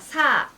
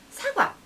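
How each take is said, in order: First: Each syllable is said separately with breaks. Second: The syllables flow together in one rhythm. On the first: The speaker calls it wrong. "단어를 또박또박" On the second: The speaker calls it right. "리듬을 타는 거예요"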